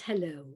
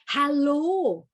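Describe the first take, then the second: First: The vowels are closed and nasal-sounding. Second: The vowels are open with the jaw dropped. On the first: The speaker calls it wrong. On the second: The speaker calls it right. "The jaw and the mouth go south and don't close around the nose"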